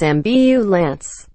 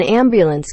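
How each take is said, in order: First: AMBULANCE as "am-byoo-lance", slowly split; slow, syllable-by-syllable ambulance; careful pronunciation. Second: Said in the usual way. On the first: Shown as a demonstration. Correcting ambulance workers, slow careful pronunciation. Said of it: "can't pronounce it as". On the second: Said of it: "people who work on ambulance".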